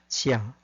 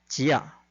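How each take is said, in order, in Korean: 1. ‘jia’ 음절은 힘을 더 주지 않고 평범하게 발음됩니다. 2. ‘jia’ 음절은 강하고 힘 있게 발음됩니다. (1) "중국식으로 발음하면 지아가 됩니다" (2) "거기서 더 중국식으로 강하게 하면"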